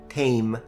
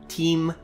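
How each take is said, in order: First: The vowel is an ay sound. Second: The vowel is a long ee sound. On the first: This is the fifteenth-century pronunciation. "the vowel changed from E to A" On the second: This is the older medieval pronunciation. "the vowel I, for the majority of the medieval period, was actually pronounced as a long E"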